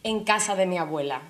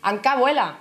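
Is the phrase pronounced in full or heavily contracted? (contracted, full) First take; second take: full; contracted. First: Every word of the phrase is pronounced in full. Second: The phrase is squeezed into one short contracted word. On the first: This is the standard form. "¿por qué voy a decir en casa de mi abuela?" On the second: This is the everyday Andalusian way of saying it. "los andaluces venimos a decir Ancabuela"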